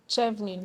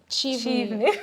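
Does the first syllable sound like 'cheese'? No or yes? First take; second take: no; yes. First: The first syllable does not sound like cheese. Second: The first syllable sounds like cheese. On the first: The speaker calls it wrong. "some people pronounce it as Chevlin" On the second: The speaker calls it right. "like cheese, Chivlin"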